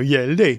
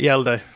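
First: The name is said in an exaggerated mock-Swedish voice. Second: The name is said plainly, in a normal voice. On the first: "you can Swedish chef it and go" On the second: "That's how you say it"

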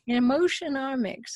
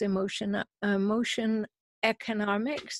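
First: The title is said without an extra syllable. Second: The title is said with an extra syllable. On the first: The speaker calls it right. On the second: The speaker calls it wrong.

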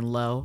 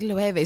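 First: It sounds just like the English word low. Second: It sounds different from the English word low. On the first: The speaker calls it wrong. "I was out here saying low, like the theater or the... Home repair shop" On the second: The speaker calls it right. "I know it's pronounced Loewe"

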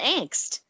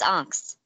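First: It is said with an American pronunciation. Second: It is said with a German pronunciation.

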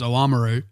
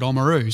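First: The word is said with its full opening. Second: The word is said with its opening dropped. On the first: "I do believe the correct pronunciation is Oamaru" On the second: "we've just dropped that start of it off and just called it Oamaru"

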